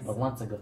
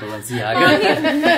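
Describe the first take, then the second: First: The middle is said as 'lan-za'. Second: The middle is said as 'len-ci-a'. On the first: It is a joking mispronunciation. The speaker calls it wrong. "he's trolling" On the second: It is the real name. The speaker calls it right. "No, it's Balenciaga"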